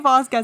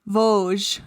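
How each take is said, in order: First: The name ends in a 'kez' sound. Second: The name ends in a soft 'zh' sound. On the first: The speaker calls it wrong. "don't say Vasquez anymore" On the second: The speaker calls it right. "I think it's like Vosges"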